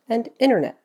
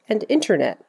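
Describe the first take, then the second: First: The T after N is dropped. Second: The T after N is clearly pronounced.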